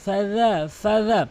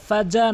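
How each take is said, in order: First: The dh is made with tongue at teeth. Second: The dh is not made at the teeth. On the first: The speaker calls it right. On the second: The speaker calls it wrong.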